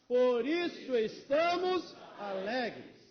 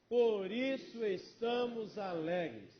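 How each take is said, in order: First: It is said with strong emphasis. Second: It is said with ordinary emphasis.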